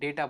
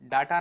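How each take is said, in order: First: The first vowel is an 'ay' sound. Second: The first vowel is an open 'ah' sound. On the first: The speaker calls it right. "डेटा बोलना चाहिए" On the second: The speaker calls it wrong. "डाटा ना कह के"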